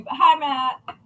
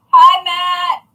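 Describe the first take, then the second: First: Said in the usual way. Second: Calling out. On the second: Real, not acted. Calling out to Matt.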